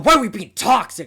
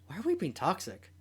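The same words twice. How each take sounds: First: It sounds upset and accusing. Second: It sounds like a sincere, curious question. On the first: The asker is angry at the other player. The speaker calls it wrong. "I'm not gonna be like, oh" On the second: The asker genuinely wants to understand. The speaker calls it right. "it's a genuine like question"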